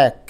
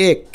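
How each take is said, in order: First: এক with an open 'ae' vowel; natural pronunciation. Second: এক with a close 'e' vowel; spelling pronunciation. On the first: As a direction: say এক as 'aek'. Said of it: "কিন্তু আমরা বলি এক". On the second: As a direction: say এক as 'ek'. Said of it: "দেখো পরে". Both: Shown as a demonstration.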